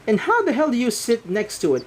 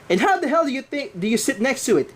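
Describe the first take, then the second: First: It is said in a normal voice. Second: It is said in a put-on accent.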